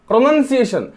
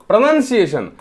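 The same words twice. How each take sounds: No difference in how they are said.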